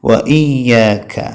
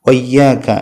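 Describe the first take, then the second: First: A glottal catch separates wa from iyyaka. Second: Wa runs straight into iyyaka without a break. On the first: The speaker calls it right. "ഹംസ പോയി പോകുന്നത് ശ്രദ്ധിക്കണം" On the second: The speaker calls it wrong. "വയ്യാക എന്നല്ല"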